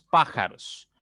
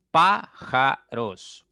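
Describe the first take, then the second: First: Said in the usual way. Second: Slow, loud "Pájaros" split as Pá - ja - ros; "Pájaros" stretched syllable by syllable, firmly. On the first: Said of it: "Veamos pájaros". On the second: Shown as a demonstration. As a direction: sound out "Pájaros" in three separate beats, projected. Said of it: "Tiene tres sílabas".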